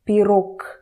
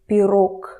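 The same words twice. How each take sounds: First: The final consonant is an unvoiced k sound. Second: The final consonant is an unvoiced k sound.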